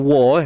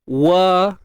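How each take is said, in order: First: The syllable is pronounced heavy and thick. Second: The syllable is pronounced thin and light. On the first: The speaker calls it wrong. "Kalau tebal nanti jadi macam mana?" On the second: The speaker calls it right. "nipis je"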